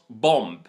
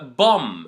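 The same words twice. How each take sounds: First: It ends with an audible b sound. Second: It ends with an m sound, no b. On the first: The speaker calls it wrong. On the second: The speaker calls it right. "don't pronounce the B, only pronounce the M"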